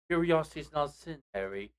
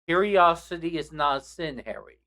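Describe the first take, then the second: First: It is said in a put-on British accent. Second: It is said in the speaker's normal accent. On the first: The speaker calls it wrong. "he tried to do it in a British accent" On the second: The speaker calls it right. "just repeat the quote without an accent"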